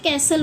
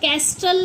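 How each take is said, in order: First: No t sound is heard after the s. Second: A t sound is heard after the s. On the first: The speaker calls it right. "हम इसे कैसल बोलते हैं" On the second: The speaker calls it wrong. "इसे हम कैस्टल नहीं बोलते"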